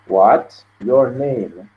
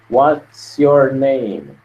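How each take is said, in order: First: Each word is said separately, not linked. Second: The words run together like one word. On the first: The speaker calls it wrong. "Você não vai separar do jeito que está aqui" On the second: The speaker calls it right. "Você junta a pronúncia desse S com a pronúncia desse Y"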